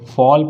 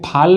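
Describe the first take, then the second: First: The vowel is a long 'aw' sound. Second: The vowel is not a long 'aw' sound. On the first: The speaker calls it right. "फॉल पढ़ेंगे" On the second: The speaker calls it wrong. "इसको भाई फाल नहीं पढ़ेंगे"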